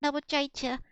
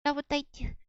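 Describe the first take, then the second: First: Rabochaicha, CH in place of T; student's unchanged Rabochaicha, both syllables with CH; repeated mispronunciation. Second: Rabotaitya with a T, not CH; patient model of Rabotaitya with a clean T; teacher's correction. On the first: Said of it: "just looks at him and goes". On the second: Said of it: "No, no, no". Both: Retold or imitated.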